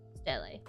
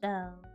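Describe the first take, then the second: First: The final E is pronounced as a syllable. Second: The final E is silent, one syllable. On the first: "Am I saying it right?" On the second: "The E at the end is silent"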